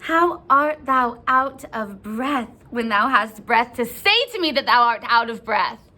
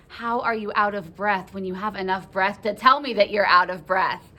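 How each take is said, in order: First: Indignant retort. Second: Said in the usual way. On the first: Acted. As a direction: hammer out Juliet's exasperated question. Juliet's indignant retort, then plain paraphrase.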